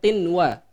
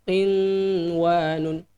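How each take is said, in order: First: The n is said clearly without a nasal hum. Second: The n is held with a long nasal hum. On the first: The speaker calls it right. "dibaca jelas" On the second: The speaker calls it wrong. "maka harusnya dibaca dengung"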